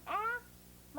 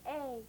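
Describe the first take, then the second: First: A as the short vowel in "cat". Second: A as the long vowel, "ay". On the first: Teacher demonstrating for pupils, short A. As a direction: say A short and open, "aah". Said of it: "short sound". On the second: Teacher demonstrating for pupils, long A. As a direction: say A like its letter name, drawn out. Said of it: "long sound". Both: Shown as a demonstration.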